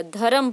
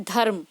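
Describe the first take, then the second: First: धर्म said as dha-ram with a full r vowel; धर्म as dha-ram, not clipped. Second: धर्म said as dharm with a half r and no vowel after it; धर्म as one tight syllable, dharm. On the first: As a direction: read धर्म slowly, giving the r its own vowel. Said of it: "इसको हमें पूरा ही पढ़ना पड़ेगा". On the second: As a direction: clip the r in धर्म straight into the m. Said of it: "उच्चारण आधा करना है". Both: Shown as a demonstration.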